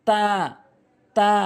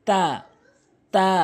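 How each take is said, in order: No difference in how they are said.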